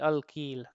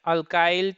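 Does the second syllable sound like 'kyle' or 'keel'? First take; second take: keel; kyle. First: The second syllable sounds like 'keel'. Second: The second syllable sounds like 'kyle'. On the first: "कहीं कहीं पे इसको अल्कील भी पढ़ा जाता है"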